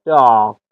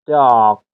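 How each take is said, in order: First: The r after the vowel is silent. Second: The same.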